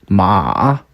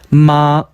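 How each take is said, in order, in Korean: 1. 3성으로 발음합니다. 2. 1성으로 발음합니다. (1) "삼" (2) "일"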